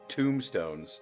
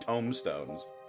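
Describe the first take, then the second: First: The first part sounds like the word tomb. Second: The first part sounds like tome, a book. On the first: The speaker calls it wrong. "It's not tombstones" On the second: The speaker calls it right. "like a book"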